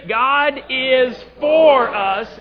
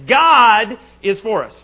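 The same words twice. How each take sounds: First: The stress falls on the word 'for'. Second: The stress falls on the word 'God'. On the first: "This time, four" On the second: "First time we're going to emphasize God"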